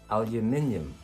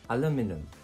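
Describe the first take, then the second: First: It has five syllables, ending in nium. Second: It has four syllables, ending in num.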